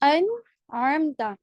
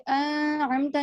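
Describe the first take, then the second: First: The n sound is pronounced clearly. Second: The n sound is blurred and nasalized. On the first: The speaker calls it right. "नून को क्या करते हैं, शो करके पढ़ते हैं" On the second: The speaker calls it wrong. "यहाँ पे हम ऐसे नहीं पढ़ते, अनअमता नहीं पढ़ते"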